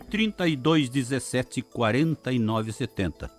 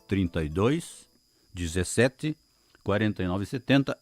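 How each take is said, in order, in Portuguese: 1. O número é lido em velocidade normal. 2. O número é lido mais devagar.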